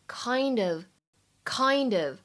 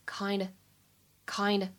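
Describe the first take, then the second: First: The two words are linked with 'of' still heard. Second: The 'of' is dropped, leaving nearly just 'kind'. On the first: "连读之后呢，可以读成kind of" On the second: "在口语当中可以直接读成kind"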